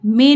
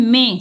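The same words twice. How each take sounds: First: "में" as oral me; the mistaken "में", no nasal; without nasal. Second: "में" as mẽ, through the nose; nasalised vowel. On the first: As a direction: say "में" with the vowel kept out of the nose. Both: Shown as a demonstration. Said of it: "में नहीं".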